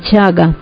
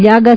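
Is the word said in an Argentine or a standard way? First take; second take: Argentine; standard. First: The ll is said like a ch sound. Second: The ll is said the standard way. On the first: The speaker calls it wrong. "para los argentinos lo mismo es la letra L que la Che" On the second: The speaker calls it right. "no dicen llaga"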